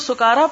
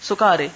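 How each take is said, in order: First: The word ends with a long 'a' vowel sound. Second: The word ends with an 'e' vowel sound. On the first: "کاف کے اوپر بھی کھڑی زبر اور رے پہ بھی کھڑی زبر" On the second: "دوسرے لہجے میں اس کو سکارے بھی پڑھا گیا ہے"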